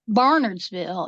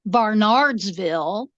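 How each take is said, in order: First: The name is said the local way. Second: The name is said the outsider way. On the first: The speaker calls it right. "here Barnardsville is pronounced Barnardsville" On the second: The speaker calls it wrong. "It is not pronounced Barnardsville"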